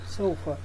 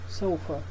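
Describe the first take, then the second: No difference in how they are said.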